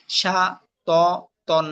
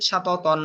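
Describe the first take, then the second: First: সা, ত, তন each on its own; broken syllables. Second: Said in the usual way. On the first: Shown as a demonstration. Teacher drilling learners in broken pronunciation, syllable by syllable. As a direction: pause after each piece of সা, ত, তন. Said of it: "ভাঙ্গা উচ্চারণ করবেন একটা একটা করে". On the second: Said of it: "ভাঙ্গা উচ্চারণ একটা একটা করে পড়লেন".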